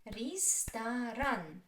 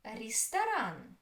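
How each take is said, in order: First: "Ресторан" slowly, in three separate syllables. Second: Said in the usual way. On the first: Shown as a demonstration. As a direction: draw out each syllable of "Ресторан". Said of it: "Which is stressed?".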